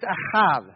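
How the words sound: It is said with a Hebrew pronunciation. The speaker calls it right. "It's a Hebrew word. It's ahav"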